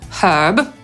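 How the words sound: It is said in a British accent, with H.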